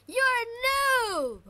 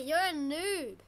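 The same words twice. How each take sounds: First: High, loud, drawn-out jeer; taunting yell. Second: Said in the usual way. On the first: Real, not acted. Player jeering at a weaker rival, taunting yell. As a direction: shout it slowly to rub it in.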